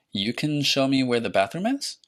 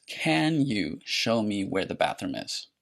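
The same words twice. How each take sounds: First: Statement turned question by rising tune at the end; rising intonation. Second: Said in the usual way. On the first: Shown as a demonstration. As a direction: pitch rises sharply on "is?". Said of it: "Notice how I went up in pitch at the end". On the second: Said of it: "you often invert the subject and the verb".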